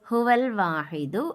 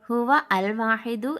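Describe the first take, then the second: First: The article is joined onto the previous word. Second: The article is said as a separate word. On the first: The speaker calls it right. "എന്നാണ് വായിക്കേണ്ടത്" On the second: The speaker calls it wrong. "എന്നല്ല നമ്മൾ വായിക്കേണ്ടത്"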